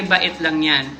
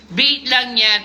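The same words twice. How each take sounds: First: "bait" said as Tagalog ba-it; two-syllable bait. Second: "Bait" said as one syllable, rhyming with late; one-syllable "Bait" with an ay glide; English bait. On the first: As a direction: split "bait" into two vowels, ba-eet. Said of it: "Bait? Ano yun?". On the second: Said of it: "Bait! Baiting!". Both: Real, not acted.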